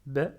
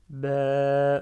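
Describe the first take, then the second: First: Said in the usual way. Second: BA drawn out long and loud, "bèèè"; prolonged vowel. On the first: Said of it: "au lieu de dire". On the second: Shown as a demonstration. Teacher prolongs it for learners, BA held long. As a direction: hold the vowel of BA for a long level stretch. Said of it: "je prolonge le ba".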